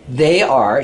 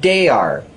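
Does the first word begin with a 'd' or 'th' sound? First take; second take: th sound; d sound. First: The first word begins with a soft 'th' sound. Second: The first word begins with a hard 'd' sound. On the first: The speaker calls it right. "instead of saying the word they" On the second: The speaker calls it wrong. "she says"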